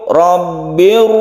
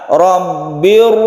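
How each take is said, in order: No difference in how they are said.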